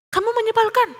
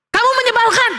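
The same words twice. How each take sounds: First: High but softened repeat of a shout; echo. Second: Put-on high, cross child's shout; annoyed yell. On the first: Valley echo answers Theo's yell, echoing. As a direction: send it back like an echo. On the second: Theo more annoyed, shouting at the voice, cross yell. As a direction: yell it at someone far away. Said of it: "Lalu dia teriak dan dia mengatakan". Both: A narrator's reading.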